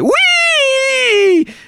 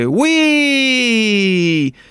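First: The exclamation sounds thrilled and full of energy. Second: The exclamation sounds less energetic than before. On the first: The ride has just started and feels fun. "הייתם מתחילים את הגלישה מין כזה" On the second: The fun is starting to wear off. "אחרי 5 דקות הייתם כזה"

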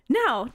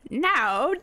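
First: It is said in Momotaro's voice. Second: It is said in the monkey's voice.

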